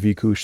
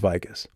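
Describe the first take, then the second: First: The name is said with a Hungarian pronunciation. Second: The name is said with an anglicized pronunciation. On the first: The speaker calls it right. "they say it properly" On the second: The speaker calls it wrong. "which is probably not how you're supposed to pronounce it, and he does it wrong"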